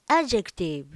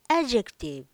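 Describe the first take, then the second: First: The D sound is dropped almost completely. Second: The D sound is dropped almost completely.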